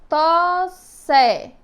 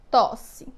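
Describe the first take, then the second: First: "Tosse" split loudly into long tós, then sé; syllable by syllable. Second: Said in the usual way. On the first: Shown as a demonstration. Teacher showing two mouth openings, "Tosse" split by syllable. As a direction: say "Tosse" in two beats, holding the first s. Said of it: "Quantas vezes eu abri minha boca?". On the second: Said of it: "ver aqui a palavra tosse".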